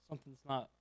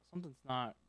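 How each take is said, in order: Both takes have the same delivery.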